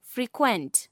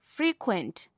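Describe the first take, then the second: First: Fre-QUENT, weight on the last syllable; second-syllable stress. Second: FRE-quent, weight on the first syllable; first-syllable stress. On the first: Teacher showing verb stress to learners, second-syllable stress. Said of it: "stress is placed on the second". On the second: Teacher showing adjective stress to learners, first-syllable stress. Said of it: "stress is placed on the first syllable". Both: Shown as a demonstration.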